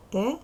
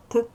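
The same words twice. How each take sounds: First: Т said as the letter name "те"; name the letter Т with a full vowel after it, "те"; Т voiced as a full syllable, "те". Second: Т as a bare consonant sound, very short; Т as one short burst, not the letter name; isolated sound. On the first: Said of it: "Буква Т, звук". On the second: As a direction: make only the sound of Т, a quick "t" with no full vowel. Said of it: "звук Т". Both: Shown as a demonstration.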